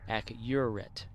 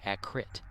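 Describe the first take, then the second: First: The middle 'u' sound is clearly pronounced. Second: The middle 'u' sound is dropped. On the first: The speaker calls it right. "There's a U in there" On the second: The speaker calls it wrong. "You don't say accurate"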